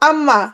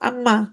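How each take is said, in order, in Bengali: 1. এটি স্বাভাবিকভাবে নাক খোলা রেখে বলা হয়। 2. এটি নাক চেপে বন্ধ করে বলা হয়। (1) "আমি যখন বললাম আম্মা" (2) "আমি যদি এখন নাক ধরি"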